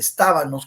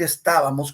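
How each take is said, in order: First: The word is said with an N sound. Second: The word is said with an M sound. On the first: This is how people in some regions say it. "estábanos con N" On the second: This is the standard form of the word. "estábamos con M"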